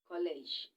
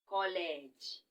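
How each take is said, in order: First: It is said with English pronunciation. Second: It is said with Igbo pronunciation, kolege. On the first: "English part is this one" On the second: "let's spell it or pronounce it or call it in Igbo"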